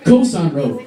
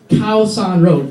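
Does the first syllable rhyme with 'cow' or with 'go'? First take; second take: go; cow. First: The first syllable rhymes with 'go'. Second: The first syllable rhymes with 'cow'. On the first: The speaker calls it wrong. "many people mispronounce it. They say Koh San Road" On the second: The speaker calls it right. "It's Khao San Road. Cow is in"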